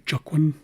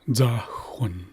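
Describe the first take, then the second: First: The word begins with a j sound. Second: The word begins with a dz sound. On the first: The speaker calls it wrong. "that's not quite correct" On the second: The speaker calls it right. "the most accurate pronunciation of this word"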